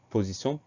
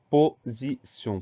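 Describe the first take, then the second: First: Said in the usual way. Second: "position" slowly split as po-zi-sion; syllable by syllable. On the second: Shown as a demonstration. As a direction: dictate "position" in three separate, emphatic syllables. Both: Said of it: "Première syllabe po".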